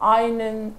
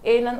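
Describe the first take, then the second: First: The first vowel sounds like 'eye'. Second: The first vowel sounds like 'eh'. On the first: "असं केलं तर ते होणार नाही" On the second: "असं केलं तर ते होणार नाही"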